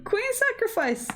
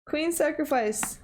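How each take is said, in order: First: High, thrilled exclamation; excited shout. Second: Said in the usual way. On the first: Real, not acted. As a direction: cry out the move in delight. Repeating the move name in shock.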